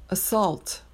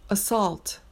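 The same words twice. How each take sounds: No difference in how they are said.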